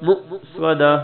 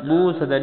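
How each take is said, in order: First: "مؤصدہ" with a sharp glottal catch after the first syllable; correct hamza. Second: "مو صدہ" with a long oo and no glottal catch; hamza dropped. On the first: Teacher showing learners the right reading, "مؤصدہ" with glottal stop. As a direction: cut "مؤصدہ" short on the hamza, mu'-sadah. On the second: Teacher showing the mistake to avoid, "مو صدہ" without the hamza stop. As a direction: glide through "مو صدہ" as moo-sadah. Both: Shown as a demonstration. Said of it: "مو صدہ نہیں".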